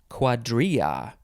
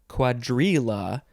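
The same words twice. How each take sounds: First: The double L is said without an L sound. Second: The double L is said with an L sound.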